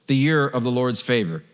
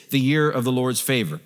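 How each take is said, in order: Both takes have the same delivery.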